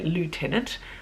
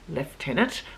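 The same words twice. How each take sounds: First: The first syllable sounds like 'loo'. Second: The first syllable sounds like 'left'. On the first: This is the American usage. "We don't say lieutenant" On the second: This is the Australian Navy usage. "In the Australian Navy, we say lieutenant"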